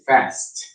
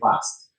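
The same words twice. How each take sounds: First: It is said with an American accent. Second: It is said with a British accent. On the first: "Americans say fast" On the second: "British say fast"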